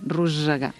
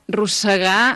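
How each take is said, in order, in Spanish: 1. La s del medio es sonora, un sonido zumbante. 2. La s del medio es sorda, un sonido silbante. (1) "sona com a S sonora" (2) "amb essa sorda"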